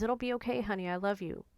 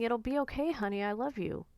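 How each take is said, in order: First: Elizabeth's tender words. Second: Elizabeth's gentle reassurance. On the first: Remembering what Elizabeth always said, tenderly. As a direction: echo her words gently, with love. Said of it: "That's what Elizabeth would always say". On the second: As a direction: comfort someone the way she used to. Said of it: "she would be saying". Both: Retold or imitated.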